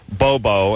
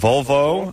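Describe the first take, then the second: First: The word starts with a B sound. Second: The word starts with a V sound. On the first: "Unlike my barber who says uh" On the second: "the two car manufacturers of uh, Sweden"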